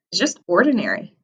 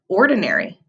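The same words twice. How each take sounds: First: Said in the usual way. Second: Ordinary said clearly, each syllable shown; model word ordinary. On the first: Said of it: "Say that word, ordinary". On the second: Shown as a demonstration. Teacher models ordinary for the class to repeat. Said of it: "Say that word".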